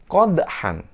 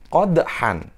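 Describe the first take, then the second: Both takes have the same delivery.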